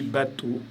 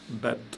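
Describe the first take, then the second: First: A vowel 'o' is sounded after the t. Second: No vowel is sounded after the t. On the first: The speaker calls it wrong. "j'ai pas dit bateau" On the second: The speaker calls it right. "j'ai dit bat"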